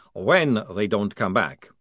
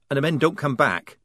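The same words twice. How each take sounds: First: When pressed slow and certain, correcting if; stress on When. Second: Said in the usual way. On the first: Acted. Maledict corrects Polly, slow with stress on When. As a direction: lean on When to correct her. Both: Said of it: "Maledict corrected her".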